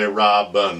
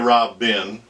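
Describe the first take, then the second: First: The second vowel is reduced to a schwa. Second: The second vowel is a full vowel. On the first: The speaker calls it right. "we say robin. This is actually a schwa sound" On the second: The speaker calls it wrong. "we don't say robin"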